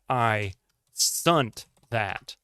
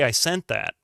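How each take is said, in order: First: The word has a 'u' vowel sound. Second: The word has an 'e' vowel sound. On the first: "where did you get the U?"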